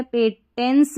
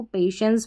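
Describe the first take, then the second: First: पेटेंस with a hard "t" instead of "sh"; mispronounced पेटेंस. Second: पेशेंस with "sh" in the middle, not "t"; correct "sh" pronunciation. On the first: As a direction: say पेटेंस with "ten" as the second syllable. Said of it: "पेटेंस नहीं पढ़ेंगे इसको". (पेटेंस का गलत उच्चारण, "श" की जगह "ट") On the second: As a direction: say पेशेंस as "pay-shens". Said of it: "पेशेंस पढ़ेंगे". (पेशेंस का सही उच्चारण, बीच में "श" की आवाज़) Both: Shown as a demonstration.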